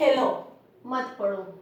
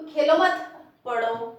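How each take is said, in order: First: The pause comes right after 'khelo'. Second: The pause comes right after 'mat'.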